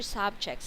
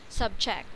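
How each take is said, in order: First: The stress is on the first syllable. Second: The stress is on the second syllable. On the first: It is a noun. "you're saying is a noun" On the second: It is a verb meaning to put under authority. "if you change the pronunciation of it"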